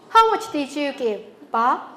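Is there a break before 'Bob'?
yes. There is a break before the word Bob. The question is addressed to Bob.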